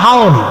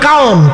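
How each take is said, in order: First: The word begins with an h sound. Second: The word begins with a k sound. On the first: "Bhairab অঞ্চলে ... খড়ে হ বানাই দিছে" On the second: "কিশোরগঞ্জে ... খড়ে ক বানাইছে"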